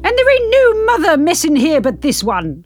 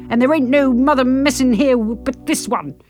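First: It is said forcefully, with conviction. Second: It is said weakly, without conviction.

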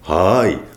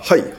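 First: The word is drawn out slowly. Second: The word is short and crisp. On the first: The listener may feel mocked. The speaker calls it wrong. "ゆっくり相槌入れたら" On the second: It matches the other person's pace. The speaker calls it right. "歯切れよくね"

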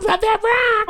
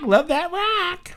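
First: A full, exaggerated imitation of the sister's voice. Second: A weak, half-hearted imitation of the sister's voice.

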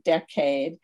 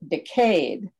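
First: It is said the speaker's usual way. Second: It is said the way many in the UK say it.

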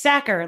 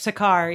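First: The name begins like the word 'sack'. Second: The name does not begin like 'sack'. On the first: The speaker calls it right. "like a sack or like in football" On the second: The speaker calls it wrong. "not like Sakar"

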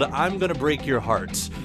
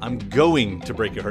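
First: The title is said without special stress on going. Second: The word going carries the main stress.

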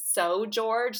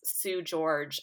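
First: The first word has an 'oh' vowel, like 'sew'. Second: The first word has an 'oo' vowel, like 'sue'.

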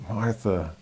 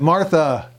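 First: The name is said quietly. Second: The name is said a little louder.

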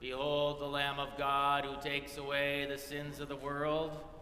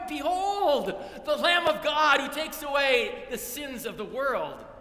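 First: It is said in a serious, somber tone. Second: It is said in a joyful, excited tone.

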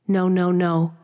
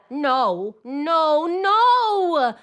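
First: The pitch stays flat on one level. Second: The pitch moves freely with strong feeling. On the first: "flatten out that melody to a monotone" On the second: "that song part of the words"

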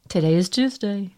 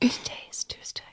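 First: It is spoken in a normal voice. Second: It is spoken in a soft whisper.

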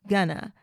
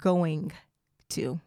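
First: The two words are run together into one. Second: The two words are said separately and in full. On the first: "we kind of smash that together" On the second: "instead of going to"

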